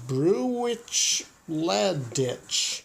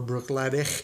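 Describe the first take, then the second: First: The name is sounded out letter by letter. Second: The name is said with its established pronunciation. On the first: The speaker calls it wrong. "that's not how you say that" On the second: The speaker calls it right. "properly pronounced"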